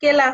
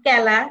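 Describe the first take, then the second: First: কেলা with closed e, "kela"; wrong pronunciation. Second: কেলা with open e, "kæla"; correct pronunciation. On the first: Teacher showing the wrong কেলা. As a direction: say কেলা with a tight e. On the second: Teacher correcting with the right কেলা. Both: Shown as a demonstration. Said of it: "কেলা হবে না".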